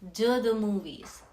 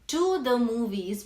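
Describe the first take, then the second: First: The words blend with a d-like sound. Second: The words to and the are separate.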